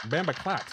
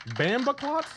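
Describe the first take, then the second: First: "Bambaclot" with the pitch falling at the end; "Bambaclot" said firmly, dropping on the last syllable; stated. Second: "Bambaclot" as a high, rising question; "Bambaclot" high and unsure, lifted at the end. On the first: Repeats the word as a statement. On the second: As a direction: query "Bambaclot" with pitch climbing to the end. Tries the word as a question. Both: Shown as a demonstration.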